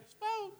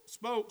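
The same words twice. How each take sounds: First: Nervous high voice. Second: Said in the usual way. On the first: Acted. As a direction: voice jumping up high on "spoke". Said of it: "your voice goes up and you get nervous". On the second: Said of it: "He probably did say it like that".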